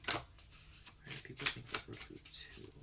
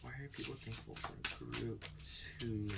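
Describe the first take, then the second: First: Breathy whisper, no voice at all; whispered intently to herself; whispered question. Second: Hushed voice, much softer than her chat; half-voiced, quiet asking; soft murmured question. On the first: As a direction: whisper it down to the cards. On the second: Repeating the question to the cards. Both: Real, not acted.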